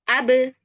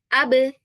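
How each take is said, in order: Both takes have the same delivery.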